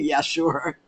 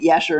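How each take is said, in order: First: It is said with a sarcastic tone. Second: It is said with genuine enthusiasm.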